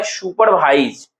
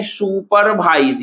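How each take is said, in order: First: Said in the usual way. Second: supervise drawn out slowly in three parts; split into syllables. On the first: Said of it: "supervise को देखिए हम लोग क्या लिखते हैं". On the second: Shown as a demonstration. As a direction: stretch supervise into su-par-vaiz. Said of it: "तीन part में है".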